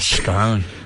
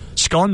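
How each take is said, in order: First: The vowel is long, rhyming with cone. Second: The vowel is short, rhyming with gone. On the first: "So it's got an E on the end" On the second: "Scone would be S C O N N"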